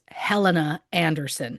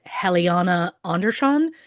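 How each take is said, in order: First: The name is read the English way, as spelled. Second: The name is said the Swedish way, with extra syllable. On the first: This is how an English speaker guesses the name. The speaker calls it wrong. "based solely on how it was is spelled and based on the fact that I'm an English speaker" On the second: This is how the name is actually pronounced. The speaker calls it right. "I have since learned, of course, the name is pronounced"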